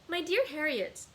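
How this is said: It is read in Lydia's character voice.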